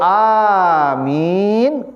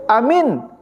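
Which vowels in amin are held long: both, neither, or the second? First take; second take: both; neither. First: Both vowels are held long. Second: Both vowels are said short. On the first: It means please grant it, God. "A panjang, min panjang" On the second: It means believe it. "Kalau pendek amin artinya percayalah"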